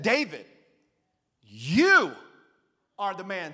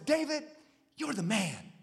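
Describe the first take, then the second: First: It sounds like a stern accusation. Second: It sounds like an admiring compliment.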